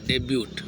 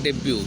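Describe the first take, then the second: First: The final t is sounded, as spelled. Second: The final t is silent. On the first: The speaker calls it wrong. "डेब्यूट लिखते हैं" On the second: The speaker calls it right. "टी silent हो जाता है"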